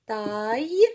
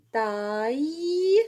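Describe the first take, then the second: First: Taille repeated a touch louder, ending in a y sound. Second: Taille said with a y sound at the end, ta-ye. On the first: (تكرار Taille مع نطق الياء) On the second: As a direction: let the double l glide into ye. (نطق Taille بصوت الياء في آخرها) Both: Shown as a demonstration. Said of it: "Deux L se prononcent ye".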